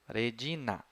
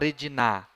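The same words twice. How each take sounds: First: The stress is on the second-to-last syllable. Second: The stress is on the last syllable. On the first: The speaker calls it right. "Vamos para a anterior. ... essa é a tônica" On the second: The speaker calls it wrong. "Na. Então, essa não é a tônica. Nunca vou falar Regina"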